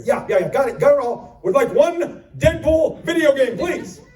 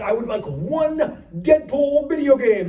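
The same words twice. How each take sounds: First: Higher, louder, clipped-off insistence; impatient customer. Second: Polite order. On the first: Customer interrupting the clerk, louder and impatient. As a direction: cut the clerk off. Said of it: "impatient reply". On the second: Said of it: "I said". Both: Retold or imitated.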